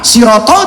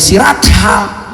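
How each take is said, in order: First: The vowels sound like o, with heavy consonants. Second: The vowels sound like a, with plain consonants. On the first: This is how the word is read from Arabic script. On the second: This is how it is read from a Latin transliteration.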